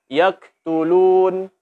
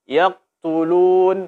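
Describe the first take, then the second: No difference in how they are said.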